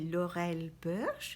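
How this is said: The name is said with French pronunciation. "en français on va le prononcer"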